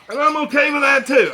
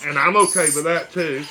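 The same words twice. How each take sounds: First: High, loud comic outburst; mock shout. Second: Said in the usual way. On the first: Real, not acted. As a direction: shout the line for a laugh. Repeated line, second shouted.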